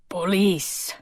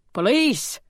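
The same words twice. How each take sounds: First: Lightly voiced thick Greek accent, hoarse smoker. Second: High alarmed gasp of a word. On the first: Portly island policeman announcing himself at the door, thick Greek accent. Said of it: "with a thick accent and the hoarse voice". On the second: Olivia realising police are at the door, alarmed high gasp. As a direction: catch your breath on it, startled. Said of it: "she gasped". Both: A narrator's reading.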